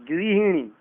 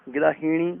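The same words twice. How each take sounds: First: गृहिणी begun as "gri"; correct "ri" sound. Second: गृहिणी begun as "gra"; wrong "ra" sound. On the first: Teacher correcting it, गृहिणी with a clear ri. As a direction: say गृहिणी as "grihinee". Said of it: "नहीं". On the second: Teacher showing the error, गृहिणी with ra for ri. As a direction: say गृहिणी as "grahinee". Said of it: "नहीं, गृहिणी". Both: Shown as a demonstration.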